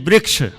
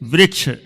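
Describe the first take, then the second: First: The first syllable uses an 'ri' sound. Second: The same.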